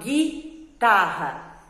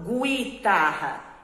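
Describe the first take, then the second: First: The U after the G is silent. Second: The U after the G is pronounced. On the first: The speaker calls it right. "eu falo guitarra" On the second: The speaker calls it wrong. "Eu não falo separado o G U, eu não falo guitarra"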